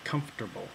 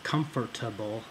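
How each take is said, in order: First: The middle consonant cluster is simplified and shortened. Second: The middle consonants are all said in full. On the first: This is the speaker's own dialect form. "I simplify that cluster and just say comfortable" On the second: This is not the speaker's dialect form. "I don't pronounce it comfortable"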